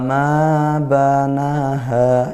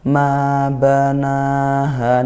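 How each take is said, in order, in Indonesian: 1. Vokal panjang pada na dipendekkan. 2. Semua vokal panjang memiliki panjang yang sama. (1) "yang nal lebih pendek" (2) "Enggak boleh beda-beda tuh"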